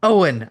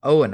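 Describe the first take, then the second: First: High, loud cry of recognition; raised, loud indignant shout; exasperated yell. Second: Understated plea; brief, louder pleading call. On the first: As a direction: yell at the friend who fooled you. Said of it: "I yelled". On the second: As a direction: appeal to a friend, mildly exasperated. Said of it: "I pleaded with him". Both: A narrator's reading.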